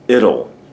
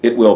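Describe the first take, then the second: First: The words merge into one word rhyming with little. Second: Both words are said fully and separately.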